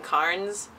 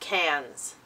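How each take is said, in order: First: An R sound is pronounced after the vowel. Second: No R sound is pronounced after the vowel. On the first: The speaker calls it wrong. "I was kept saying Carnes" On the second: The speaker calls it right. "you don't say the R. No, it's just cans"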